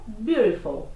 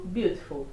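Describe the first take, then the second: First: American English, flapped T; American accent. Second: British accent, beautiful with a crisp T; British English, crisp T. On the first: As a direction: say beautiful as "byoo-dih-ful". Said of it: "No inglês americano". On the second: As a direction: say beautiful with a sharp clear T. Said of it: "No inglês britânico". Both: Shown as a demonstration.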